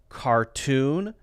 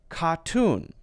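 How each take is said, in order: First: The R is strong with the tongue curled back. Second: The R is dropped, leaving an open vowel. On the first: "You curl the tongue back, and it's this strong R pronunciation" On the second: "then it's going to be that more open sound"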